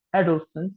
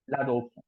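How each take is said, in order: First: Adolescence high, with a rising end; English pronunciation. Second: L'adolescent softer, falling nasal ending; l'adolescent in French, silent final T, dropping away; French pronunciation. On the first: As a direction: say Adolescence as an English cue word, lifted. Teacher repeats the English word. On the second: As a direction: say l'adolescent as la-doh-less-ON. Teacher repeats the French form. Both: Shown as a demonstration.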